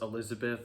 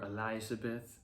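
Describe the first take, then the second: First: The name is said in its ordinary pronunciation. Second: The name is said with the song's pronunciation.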